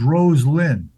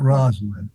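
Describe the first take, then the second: First: The name starts with the sound 'rose'. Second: The name starts with the sound 'roz'. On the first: The speaker calls it right. "her name's Rose Lynn" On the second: The speaker calls it wrong. "not Rosalind"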